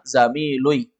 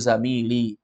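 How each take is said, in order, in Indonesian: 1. Vokal u ada sebelum ee di akhir. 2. Vokal i ada sebelum ee di akhir. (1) "Karena kalau dia dhammah" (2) "cocok ya sukun itu sebelumnya baris bawah"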